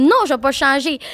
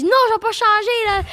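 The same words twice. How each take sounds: First: Mildly indignant retold refusal; firm no with a touch of rage; retold ranting. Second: High-pitched mock yell; retold yelling. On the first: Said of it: "de rager". (refus un peu fâché, rejoué) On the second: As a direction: re-enact yelling at a streamer, pitch shooting up. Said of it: "j'ai commencé à crier dessus". (cri de rage rejoué, très aigu)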